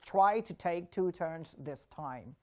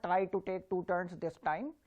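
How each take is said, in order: First: "try to take two turns" slower, each T puffed with air; right way, aspirated T. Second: "try to take two turns" with the Ts barely puffed; wrong way, soft T. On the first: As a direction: breathe out hard on every T in "try to take two turns this time". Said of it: "the T has to be practiced". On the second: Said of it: "So it's not". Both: Shown as a demonstration.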